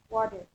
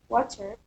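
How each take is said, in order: First: The middle consonant is a soft d-like tap. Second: The middle consonant is a clear t sound.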